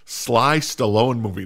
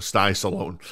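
First: "Sly Stallone" with a clear l, "Sly"; corrected name. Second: "Sty Stallone" with a t, "Sty"; mispronounced name. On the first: Host correcting himself to "Sly Stallone", slow and deliberate. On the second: Host stumbling over the actor's name, saying "Sty Stallone". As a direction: slip into "Sty Stallone" with a t sound. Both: Real, not acted. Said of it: "not Sty".

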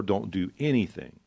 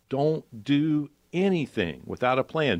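First: Said in the usual way. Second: "Don't do anything without a plan" said slowly and higher, each word pressed; slow, raised insistence on "anything"; emphatic warning. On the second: Shown as a demonstration. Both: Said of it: "this is why I said before".

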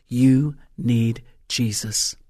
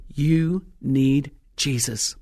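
First: Slow, pointed, straight at the listener; deliberate direct appeal. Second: Slow, weighty delivery of each word; drawn-out pronouncement; slow emphatic. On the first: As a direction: say it slowly to each listener. Repeats directly to audience. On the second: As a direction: let each word land slowly. Preacher stresses message. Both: Shown as a demonstration.

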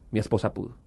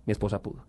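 First: Said in the usual way. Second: "Mi esposa pudo" said again, much softer and deliberate; soft emphatic repeat. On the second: Shown as a demonstration. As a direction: let the repeat sink in quietly. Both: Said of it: "repeated for emphasis".

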